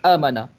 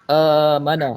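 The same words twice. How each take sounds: First: The middle vowel is cut very short. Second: The middle vowel is stretched beyond two beats. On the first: "dikurangkan jadi amana, tak ada harakat" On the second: "kalau tambah amana lebih dari dua harakat"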